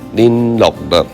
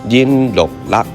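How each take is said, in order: First: It is said with a northern Vietnamese accent. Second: It is said with a southern Vietnamese accent. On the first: "那这个是北越的发音" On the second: "南越人通常会讲它是林落落"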